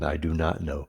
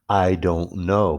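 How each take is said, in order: First: "Do not" is said as two full words. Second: "Do not" is contracted into one syllable. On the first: "even without the contraction" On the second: "but that always comes out"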